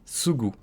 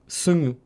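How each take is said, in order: First: The middle consonant is a plain hard g. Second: The middle consonant is nasal, spoken through the nose.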